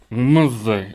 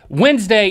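First: The word is mumbled. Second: The word is said clearly.

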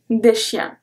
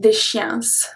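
First: The final s is silent. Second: An s sound is pronounced at the end. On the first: The speaker calls it right. "I say un chien, des chiens" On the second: The speaker calls it wrong. "I don't say des chiens"

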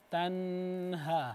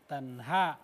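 First: The n carries a lingering nasal hum. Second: The n is clear, with no nasal hum. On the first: The speaker calls it wrong. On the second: The speaker calls it right.

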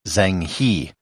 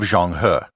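First: The name is said with English-style sounds. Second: The name is said with Chinese-style sounds. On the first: "you speak English, you might pronounce it as" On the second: "I'm trying to stay true to the Chinese pronunciation"

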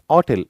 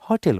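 First: The word starts without an h sound. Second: The word starts with an h sound. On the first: "ऑटेल याच silent आहे" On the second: "बहुतांश देशामध्ये हॉटेल म्हणतात"

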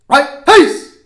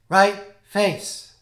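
First: The command is barked loudly and forcefully. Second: The command is said weakly and without force. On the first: The speaker calls it right. "It should look a lot more like this" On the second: The speaker calls it wrong. "It shouldn't look like this"

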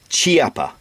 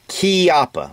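First: The word does not start with a k sound. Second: The word starts with a k sound. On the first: The speaker calls it wrong. "the proper way to pronounce this is not Chiappa" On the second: The speaker calls it right. "It's Chiappa, like K-E-Y-A-P-P-A"

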